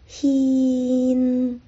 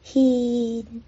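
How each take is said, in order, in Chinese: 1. 最后的鼻音清晰且完整。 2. 最后的鼻音微弱且不完整。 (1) "应该是hin，很明显的后鼻音hin" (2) "演唱者把献发得不够清楚，不够完整"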